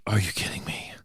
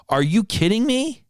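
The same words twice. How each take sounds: First: Breathless incredulous whisper. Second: High, outraged disbelief. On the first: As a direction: whisper it under your breath in disbelief. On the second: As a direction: throw the question out pitched way up. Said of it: "that's what I was screaming in my head". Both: Retold or imitated.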